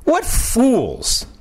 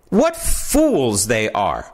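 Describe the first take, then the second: First: What fools. thrown up high in disbelief; scornful. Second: Slow contempt. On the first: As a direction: scoff at them, pitched high. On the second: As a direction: spell out the contempt word by word. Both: Acted.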